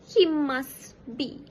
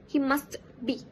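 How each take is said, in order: First: The t sound in must is dropped. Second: The t sound in must is pronounced. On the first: "final consonant elision before another consonant" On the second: "instead of"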